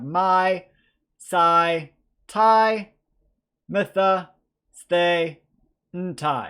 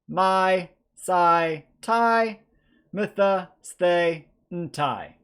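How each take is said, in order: First: The endings are said at a slow pace. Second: The endings are said at a medium pace.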